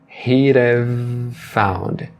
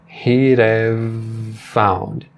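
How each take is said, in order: Both takes have the same delivery.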